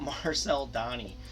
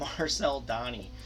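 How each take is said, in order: First: The surname is said like 'Donnie'. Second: The same.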